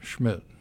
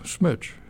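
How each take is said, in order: First: The name begins with an sh sound. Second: The name begins with a plain s sound. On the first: The speaker calls it right. "I said, Schmidt" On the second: The speaker calls it wrong. "they could never pronounce my name"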